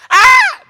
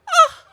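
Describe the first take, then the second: First: It is a loud, full scream. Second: It is a weak, feeble old-lady cry.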